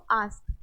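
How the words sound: The vowel is a long, open 'ah' sound. "British English हमारा accent use करते हैं"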